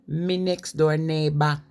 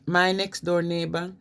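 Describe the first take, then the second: First: It is said in a Wolverhampton accent. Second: It is said in a standard English accent.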